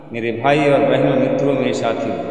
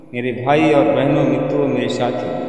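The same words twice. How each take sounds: No difference in how they are said.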